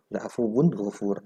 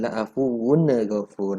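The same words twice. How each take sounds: First: "La'afuwun" closed on n, directly into "ghafur"; no ne between "La'afuwun" and "ghafur"; straight into gha. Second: "la'afuwun" drawn out as la'afuwu-na before "ghafur"; slow slur with a stray vowel after "la'afuwun"; dragged wrong take. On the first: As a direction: say "La'afuwun ghafur" cleanly, without dragging. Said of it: "Langsung masuk ke ghanya". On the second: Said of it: "ada n-nya itu dulu". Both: Shown as a demonstration.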